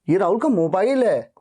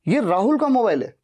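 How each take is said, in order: First: The stress is on mobile. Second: The stress is on Rahul.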